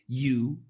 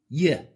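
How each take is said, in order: First: The word has a full long vowel. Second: The word is only a Y sound. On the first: "has three pronunciations" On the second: "y is the most common pronunciation"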